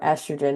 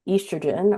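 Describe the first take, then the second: First: The word is said the American way. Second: The word is said the British way.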